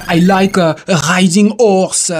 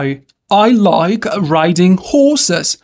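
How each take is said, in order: First: English with a thick French accent, dropped H; French learner's English, uvular R, silent H in "horse". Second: Slow, careful English with a breathed H in "horses"; drawn-out teacher's English, H clearly sounded in "horses"; correct English pronunciation. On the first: French learner's wrong version of sentence. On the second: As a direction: model "horses" with an audible H and English R. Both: Shown as a demonstration.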